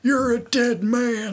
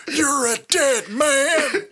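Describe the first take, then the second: First: A hint of the strained wrestler rasp; slow, slightly raised prospector voice; Terry Funk voice. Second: High, slow strained rasp; Terry Funk voice. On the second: Retold or imitated. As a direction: stretch it out in a cartoon prospector voice. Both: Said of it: "talking like this".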